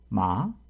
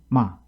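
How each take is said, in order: First: The syllable is said with a low falling tone. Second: The syllable drops sharply and is cut short. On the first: "이 성" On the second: "여섯 번째 육 성은"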